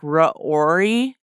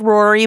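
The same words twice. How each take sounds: First: The name has a short pause in the middle. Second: The name is said smoothly without a break.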